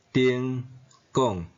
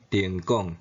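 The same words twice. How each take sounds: First: 丁 and 讲 each said apart in their own citation tone. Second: 丁讲 run together, with 丁 shifted from first to seventh tone; sandhi tone. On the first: Taiwanese teacher showing students the base tones of 丁讲. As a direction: read 丁 then 讲 slowly, syllable by syllable, each in its base tone. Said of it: "本调音". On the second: Taiwanese teacher showing students the sandhi form of 丁讲. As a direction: say 丁讲 as one word, with 丁 in its sandhi tone. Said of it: "变调音". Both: Shown as a demonstration.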